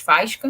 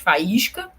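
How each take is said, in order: First: The stress falls on the first syllable. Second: The stress falls on the second syllable. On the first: The speaker calls it wrong. "nós não falamos faísca" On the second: The speaker calls it right. "nós falamos faísca"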